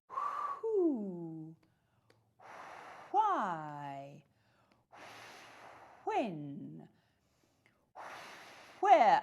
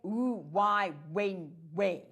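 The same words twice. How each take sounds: First: The wh- words start with a breathy h sound. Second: The wh- words start without a breathy h sound. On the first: "I actually make these breathy sounds" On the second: "I don't say"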